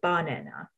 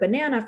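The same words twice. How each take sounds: First: The stress falls on an unusual syllable. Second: The stress falls on the usual syllable.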